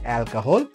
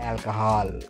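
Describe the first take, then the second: First: The last syllable has a rounded 'o' vowel. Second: The last syllable has an open 'ah' vowel. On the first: "British ఇంగ్లీష్లోనే ఈ sound ఉంటుంది" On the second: "వాళ్ళు సాధారణంగా ఆను వాడతారు"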